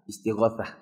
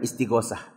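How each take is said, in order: First: The last syllable starts with a 'th' sound. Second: The last syllable starts with an 's' sound. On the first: The speaker calls it right. "Belakangnya pakai ta" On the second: The speaker calls it wrong. "Bukan istighosah"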